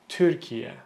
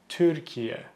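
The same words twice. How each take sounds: The two takes are said the same way.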